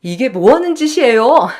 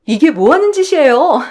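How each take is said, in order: First: Firm, indignant challenge near the speaker's own pitch; upset but restrained objection; angry protest. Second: High, loud cry of outrage from an employee; startled, indignant outcry; shocked protest. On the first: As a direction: confront an in-law with controlled anger. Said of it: "정말 화도 나고 손이 떨리더라고요". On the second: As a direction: burst in raised and alarmed to stop an attack. Employee steps into the assault. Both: Acted.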